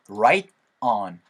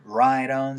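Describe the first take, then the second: First: The t is said as a clear t. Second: The t is flapped, linking into the vowel.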